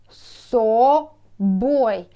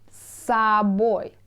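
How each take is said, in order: First: The first vowel is a full 'o' sound. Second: The first vowel is reduced to an 'a' sound. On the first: The speaker calls it wrong. "you can see O" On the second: The speaker calls it right. "you should say собой, а, instead of say O"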